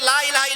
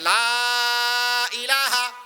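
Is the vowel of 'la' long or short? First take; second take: short; long. First: The vowel of 'la' is short. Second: The vowel of 'la' is drawn out long. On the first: There are other gods besides God. The speaker calls it wrong. "না লা তিন আলিফ না টানে" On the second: There is no god except God. The speaker calls it right. "লা যদি তিন আলিফ টানে"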